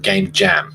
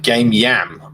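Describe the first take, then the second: First: The second word starts with a J sound. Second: The second word starts with a Y sound. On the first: This is how the speaker's group says it. "Because we say jam, the J" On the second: This is how the other person says it. "so you you you pronounce it game yam"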